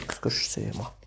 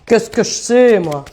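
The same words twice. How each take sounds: First: Breathless unvoiced whisper; whispered aside. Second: Louder, playful put-on accent on "Qu'est-ce que je sais, moi". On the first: Real, not acted. Tarot reader to her live viewers, whispering an aside. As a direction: say it under your breath. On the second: Tarot reader showing off her accent to live viewers, playful put-on accent. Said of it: "Vous l'entendez, mon accent?".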